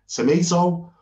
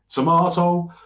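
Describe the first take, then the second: First: Tomato is said with an American accent. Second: Tomato is said with a standard British accent. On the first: "you say tomato, Americans" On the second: "and we say tomato"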